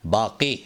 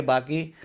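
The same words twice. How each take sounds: First: 'बाकी' with a deep-throated q; correct Urdu pronunciation. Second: 'बाकी' with an ordinary k; wrong pronunciation. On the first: Teacher models the proper word, correctly pronounced. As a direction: put a back-of-throat q in 'बाकी'. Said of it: "इसका सही तलफ़ुज़ है". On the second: Teacher shows the common error, mispronounced. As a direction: say 'बाकी' with k instead of q. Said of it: "गलत तलफ़ुज़ है ये". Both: Shown as a demonstration.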